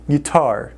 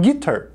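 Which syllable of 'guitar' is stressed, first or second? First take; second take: second; first. First: The stress is on the second syllable. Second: The stress is on the first syllable. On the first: The speaker calls it right. "a pronúncia correta é guitar" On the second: The speaker calls it wrong. "colocam a sílaba tônica no gui"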